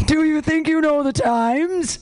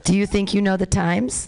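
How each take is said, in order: First: Slow, high-pitched mock question; mocking incredulity. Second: Said in the usual way. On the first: Real, not acted. Host repeats an odd old prompt, drawn-out incredulous mockery. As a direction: stretch it out high, baffled by the wording.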